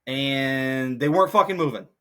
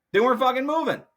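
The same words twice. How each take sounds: First: Said in the usual way. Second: Higher and louder exasperated repeat. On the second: Real, not acted. Repeating that spectators wouldn't move, exasperated and louder. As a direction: hammer the point home in frustration.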